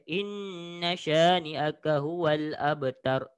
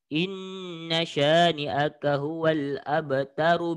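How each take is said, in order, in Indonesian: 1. Suara berhenti sepenuhnya setelah kata terakhir. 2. Kata terakhir langsung bersambung ke frasa berikutnya. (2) "sambung ke semuanya"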